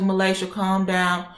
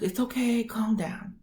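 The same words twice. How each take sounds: First: Retold slow, drawn-out plea; calming order. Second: Soft, high reassuring coo; soothing. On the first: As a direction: draw it out to rein the patient in. Doctor tells her to calm down. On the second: Retold or imitated. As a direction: hush the upset patient gently, imitating the doctor. Doctor soothing her.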